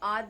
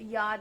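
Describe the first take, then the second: First: The word starts directly with an 'aa' vowel. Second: The word starts with a clear 'y' sound. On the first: The speaker calls it wrong. "आद नहीं होता" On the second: The speaker calls it right. "यह होता अंतर से"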